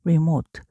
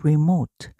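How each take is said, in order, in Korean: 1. 첫 모음은 'ee'처럼 나요. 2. 첫 모음은 'ee'처럼 나요.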